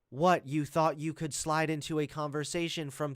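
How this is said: It is read in a flat, robotic assistant voice.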